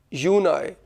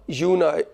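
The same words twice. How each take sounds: The two takes are said the same way.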